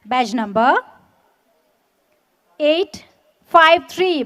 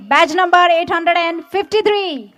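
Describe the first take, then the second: First: Said in the usual way. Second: Slow, louder, every number spelled out; slow emphatic repeat. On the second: Real, not acted. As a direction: repeat it slowly for the whole crowd. Badge number repeated for the crowd.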